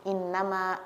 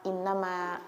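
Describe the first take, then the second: Both takes have the same delivery.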